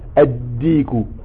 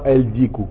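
First: The l is dropped and the d is doubled. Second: An l sound is heard before the d. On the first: The speaker calls it right. "donc on dit ad-diku" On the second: The speaker calls it wrong. "et non pas el-diku"

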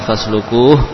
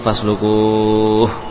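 First: The long vowel is held for two counts. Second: The long vowel is held for six counts.

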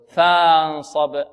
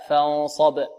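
First: The first vowel is stretched into a long vowel. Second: The first vowel is short, with no stretching. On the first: The speaker calls it wrong. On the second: The speaker calls it right.

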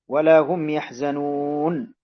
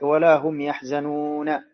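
First: The last word ends on a bare consonant. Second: The last word ends with a final vowel. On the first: The speaker calls it right. "تقف بالسكون" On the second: The speaker calls it wrong. "ولا تقول"

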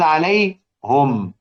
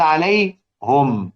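First: The pronoun is said with a u vowel: alayhum. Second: The pronoun is said with a u vowel: alayhum.

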